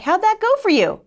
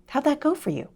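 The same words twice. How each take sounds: First: High, loud mock husband voice; needling husband. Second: The Lord. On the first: Husband to wife back in bed, high loud retold jibe. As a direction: call it out pointedly as the husband. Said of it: "My husband was like". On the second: Retold or imitated. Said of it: "I just heard the Lord".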